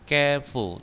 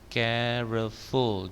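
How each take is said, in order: First: The word is said with two syllables. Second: The word is said with three syllables. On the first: The speaker calls it right. "tapi bacanya careful. Dua dua syllable ya" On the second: The speaker calls it wrong. "Jangan tiga syllable. Careful jangan"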